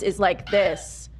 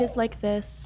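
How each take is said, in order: First: It is spoken in a lower, fuller chest voice. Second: It is spoken in a higher, lighter blended voice. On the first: "Chest voice is like this" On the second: "Your blend is like this"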